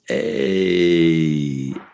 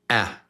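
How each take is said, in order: First: The vowel is drawn out long and held. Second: The vowel is cut off short and quick. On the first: "But long is A" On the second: "So short is just boom"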